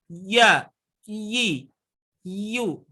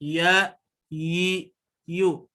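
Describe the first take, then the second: First: "Ya, yi, yu" pushed hard and higher; hard wrong ya. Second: "Ya, yi, yu" said gently, unpressed; soft ya yi yu. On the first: Teacher showing the hard wrong reading, pressed and higher. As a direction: hit "Ya" hard, the way not to. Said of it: "Jadi enggak seperti ini". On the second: Teacher showing the soft lin sound, gentle. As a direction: glide softly through "Ya", "yi", "yu". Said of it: "atau lembut". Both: Shown as a demonstration.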